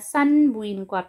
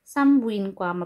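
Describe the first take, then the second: First: It is said with an n before the b. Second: It is said with an m before the b. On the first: "di ba yung spelling niya?" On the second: "Pero yung pag-pronounce niya, pag bigkas"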